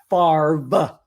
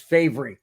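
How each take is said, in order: First: The r sound comes before the v sound. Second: The r sound comes after the v sound. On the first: The speaker calls it wrong. "not Favre" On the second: The speaker calls it right. "the way it's spelled"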